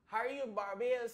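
It is said in an imitated Bajan accent.

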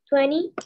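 It is said with an American accent.

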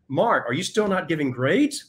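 It is asked in an accusatory tone.

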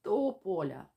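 The word starts with a tense silent block. The speech muscles are held in tension. "іде така зупинка"

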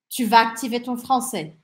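The sentence has a flat declarative intonation. The speaker is stating that you will activate your French. "Afirmação"

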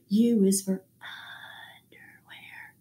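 The words are said in a soft whisper.

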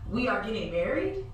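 It rises at the end like a question.

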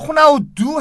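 The name ends with an 'oo' vowel. This is the Portuguese way of reading it. "이게 포르투갈식으로 읽은 거고"

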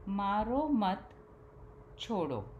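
The pause comes after the second word.

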